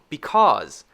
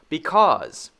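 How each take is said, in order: The two takes are said the same way.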